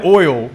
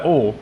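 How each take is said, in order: First: Oil drawn out as OY-ul; two-syllable oil. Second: Oil squashed into one syllable, OL; Texan oil. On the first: Showing the girls' word test, oil as careful OY-ul. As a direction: stretch oil into a full OY-ul, louder. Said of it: "one word we were trying to say was oil". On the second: Showing the Texan accent, oil as OL. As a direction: say oil Texan style, as OL without the glide. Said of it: "like you have a Texan accent". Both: Shown as a demonstration.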